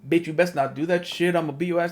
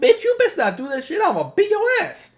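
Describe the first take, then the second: First: It is said in a harsh, demanding tone. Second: It is said in a playful, loving tone.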